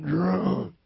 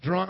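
First: Put-on DRUNK stretched out long for emphasis; emphatic drunk. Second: Said in the usual way. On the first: Shown as a demonstration. Preacher upping how drunk he got, DRUNK drawn out. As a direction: lean hard on "drunk", dragging it out. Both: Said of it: "I'm not just talking about drunk".

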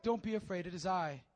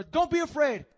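First: Calm them gently; gentle reassurance. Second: High, loud urging calm; Jesus calling to frightened disciples; called out reassurance. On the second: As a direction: call it out so they hear. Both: Acted. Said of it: "he has to say it again".

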